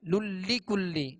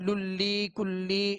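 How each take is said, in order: First: The 'i' vowels are kept short. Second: The 'i' vowels are stretched out long. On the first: The speaker calls it right. "बगैर खींचे बगैर झटका दिए इसे मारूफ पढ़ेंगे" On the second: The speaker calls it wrong. "इस तरह खींचना नहीं"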